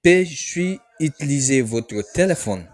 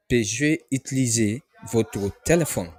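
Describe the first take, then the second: First: Careful French model phrase; French phrase demo. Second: Said in the usual way. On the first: Shown as a demonstration. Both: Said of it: "General conversation in French".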